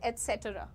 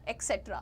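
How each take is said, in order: First: It starts with an 'ets' sound. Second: It starts with an 'eks' sound. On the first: The speaker calls it right. "The correct pronunciation is एटसेट्रा" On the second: The speaker calls it wrong. "ओ एक्सेट्रा भी बोलते हैं"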